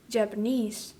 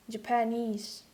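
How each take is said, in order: First: "Japanese" as JAP-uh-NEESE, secondary stress on JAP; light beat on JAP, main stress on NESE in "Japanese"; secondary stress shown. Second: "Japanese" as juh-PAN-EESE, two adjacent stressed syllables; weak first syllable, then stress both PAN and ESE in "Japanese"; stress clash shown. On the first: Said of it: "place a secondary stress on one". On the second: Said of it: "two adjacent stressed syllable". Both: Shown as a demonstration.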